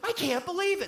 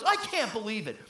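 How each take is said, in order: First: The voice sounds delighted and excited. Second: The voice sounds dismayed and let down. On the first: The person is thrilled by a gift. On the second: The person is upset by bad news.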